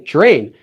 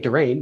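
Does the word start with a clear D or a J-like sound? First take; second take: J-like; clear D. First: It starts with a J-like sound. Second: It starts with a plain, hard D sound. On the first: The speaker calls it right. "but we say drain" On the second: The speaker calls it wrong. "We don't say drain"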